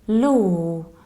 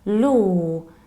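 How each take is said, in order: No difference in how they are said.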